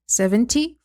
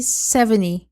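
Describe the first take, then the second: First: Seventy with a clear T sound; T spoken. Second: Seventy with the T left out, like sevenny; T dropped. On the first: Teacher shows students Seventy, clearly pronouncing the T. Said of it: "falando o T". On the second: Teacher shows students seventy, dropping the T sound. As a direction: say seventy and skip the T. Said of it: "excluindo o T". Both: Shown as a demonstration.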